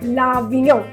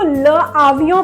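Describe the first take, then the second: First: The article runs into the noun as one word. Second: The article is said apart from the noun. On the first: The speaker calls it right. "हम इसको बोलेंगे लावियों" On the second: The speaker calls it wrong. "अब हम इसको ल आवियों प्रोनाउंस नहीं करेंगे"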